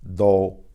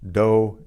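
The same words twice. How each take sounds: First: The d is softer, with the tongue touching the teeth. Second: The d is made with the tongue on the gums. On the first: "in Spanish" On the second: "in English"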